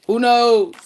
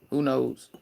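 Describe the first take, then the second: First: Loud, high-pitched "who knows?"; high call-out. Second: Said in the usual way. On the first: Real, not acted. Musing to viewers about popping out with someone new, high loud call-out. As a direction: belt the question out high. Repeats the question, calling it out.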